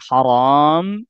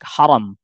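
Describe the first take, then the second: First: The second vowel is held long. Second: The second vowel is kept short. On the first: It means forbidden. "kalau dibaca panjang" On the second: It means honored or sacred. "Tapi ini dibaca pendek"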